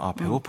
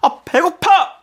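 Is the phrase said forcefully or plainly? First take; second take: plainly; forcefully. First: It is said plainly, without extra force. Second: It is said forcefully, with a strong appeal. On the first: The speaker calls it wrong. "그냥 아 배고파 이렇게 하면 안 되고" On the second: The speaker calls it right. "강하게 어필해야 돼요"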